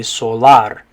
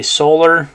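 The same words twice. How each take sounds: First: Solar as so-LAR, ah in the second syllable; Spanish pronunciation. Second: Said in the usual way. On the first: Shown as a demonstration. Teacher shows the Spanish A, solar said so-LAR. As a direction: stress the end of solar, so-LAR. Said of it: "the A makes an ah sound". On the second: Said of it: "So in English, we say".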